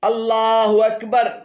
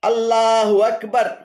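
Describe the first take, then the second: The two takes are said the same way.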